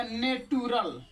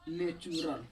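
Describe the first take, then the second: First: नेटुरल with a hard t, "ne-tu-ral"; wrong pronunciation. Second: नेचुरल with ch after ne, "ne-chu-ral"; correct pronunciation. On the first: Teacher demonstrating students' wrong reading of natural. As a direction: read नेटुरल the mistaken way, t not ch. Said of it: "जो कि बिल्कुल हो जाएगा गलत". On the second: Teacher giving the right reading of natural to students. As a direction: say नेचुरल properly, t becoming ch. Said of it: "ऊ का मतलब लगाएंगे नेचुरल". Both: Shown as a demonstration.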